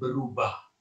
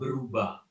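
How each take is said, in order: First: The last syllable is articulated clearly. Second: The last syllable is swallowed and unclear. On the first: The speaker calls it right. "bah itu harus jelas. Jadi berubah" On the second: The speaker calls it wrong. "Tidak boleh Anda memproduksi kata berubah"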